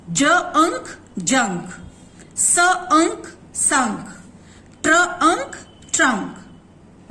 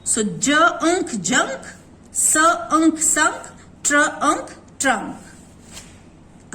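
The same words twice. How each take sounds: First: Slow "ज अंक जंक", sound by sound then joined; slow phonics blending. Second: Slow "ज अंक जंक", each sound held then joined; slow phonics blending. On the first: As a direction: split each word into "ज" and "अंक", then blend. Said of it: "एन के कभी भी साथ में कैसे प्रोनाउंस होता है?". ("ज अंक जंक" धीमे-धीमे ध्वनि जोड़कर) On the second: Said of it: "N and K says अंक". ("ट्र अंक ट्रंक" धीमे-धीमे ध्वनि जोड़कर) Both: Shown as a demonstration.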